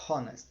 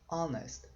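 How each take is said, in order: First: The word begins with an audible h sound. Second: The word begins directly with a vowel sound. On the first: The speaker calls it wrong. "Você não fala ho" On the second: The speaker calls it right. "Fala honest"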